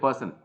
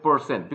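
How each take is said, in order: First: It is said in an Indian accent. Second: It is said in an American accent. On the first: "Indian would say percent" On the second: "he would say percent because he would roll his R's"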